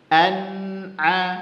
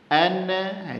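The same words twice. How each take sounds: First: The nun flows smoothly with no bounce. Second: The nun is released with a small bounce. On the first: The speaker calls it right. "ngalir aja" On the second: The speaker calls it wrong. "enggak boleh dipantulkan"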